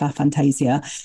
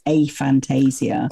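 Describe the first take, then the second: First: It is said in a non-American way. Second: It is said in an Americanized way.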